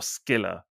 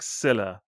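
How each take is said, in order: First: The name begins with an sk sound. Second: The name begins with a plain s sound.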